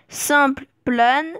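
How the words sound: It is said with a fully French accent. "avec un accent euh, purement français"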